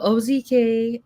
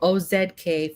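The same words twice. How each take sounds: First: The letter Z is said the American way. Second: The letter Z is said the non-American way.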